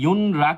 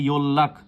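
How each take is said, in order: First: The middle is an N followed by R. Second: The middle is a long double L sound. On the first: The speaker calls it wrong. "সেটাও ভুল" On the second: The speaker calls it right. "এটা কিন্তু ইয়োল্লাখ উচ্চারিত হবে"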